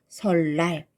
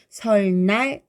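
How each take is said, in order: First: The second syllable starts with an l sound. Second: The second syllable starts with an n sound. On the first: The speaker calls it right. "르로 바꿔서 발음합니다" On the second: The speaker calls it wrong. "설날 이렇게 발음하면 좀 어렵죠"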